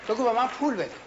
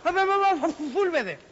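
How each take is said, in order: First: پول said cleanly with a firm P; clear model. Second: Stumbling به من، به من, then پول forced out louder; struggling with P. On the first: Shown as a demonstration. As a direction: model پول بده, P crisp. (پول را با پ روشن بگو) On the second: Acted. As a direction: fight to get the word پول out. (با تقلا و بلند پول را بگو)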